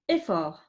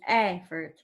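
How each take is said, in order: First: It is said with a French pronunciation. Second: It is said with an English pronunciation. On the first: "In French, effort" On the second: "and here is effort"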